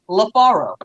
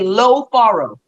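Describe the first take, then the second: First: The first vowel is a short 'A' sound. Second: The first vowel is a stressed, drawn-out 'O'. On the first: The speaker calls it wrong. "you say La Faro" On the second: The speaker calls it right. "emphasize that O"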